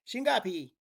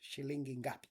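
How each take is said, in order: First: Syllables are dropped, merging into one short word. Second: Every syllable is spoken in full. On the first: It sounds like a local speaker. "they cut out the li and they just go with shingapi" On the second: It is the standard textbook form. "shilingi ngapi would be the correct way to say, but it's like too much"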